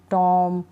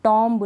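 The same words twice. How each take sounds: First: टॉम ending on a held M, no B; silent B. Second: टॉम्ब with an audible final B after the M; B wrongly sounded. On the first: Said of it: "बी को हम नहीं पढ़ेंगे". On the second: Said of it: "टॉम्ब नहीं". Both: Shown as a demonstration.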